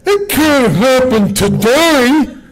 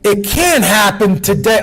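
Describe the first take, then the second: First: It is said with a dismissive, mocking imitated inflection. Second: It is said plainly, without a mocking imitation. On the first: The speaker calls it right. "I think that exactly sounds like these people" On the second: The speaker calls it wrong. "Let me, let me get the inflection right"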